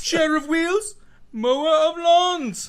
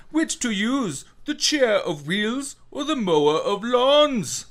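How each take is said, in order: First: Even higher, louder, slow sing-song; Skarsgård impression. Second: High, slow, theatrical character voice; Skarsgård impression. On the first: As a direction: draw the words out grandly. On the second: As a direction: camp it up like a ham villain. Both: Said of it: "Skarsgård making his appearance".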